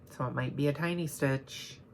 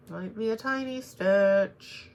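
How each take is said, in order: First: Said in the usual way. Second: Higher, louder, slowed-down Might be a tiny stitch; a playful higher repeat of tiny stitch; mock dramatic. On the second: Real, not acted. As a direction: stretch it out like a dramatic warning.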